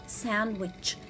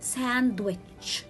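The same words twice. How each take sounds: First: The D sound is silent in the word. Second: The D sound is pronounced in the word. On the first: The speaker calls it right. "but I will read it sandwich. letter D is a silent letter" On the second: The speaker calls it wrong. "I cannot read it sandwich"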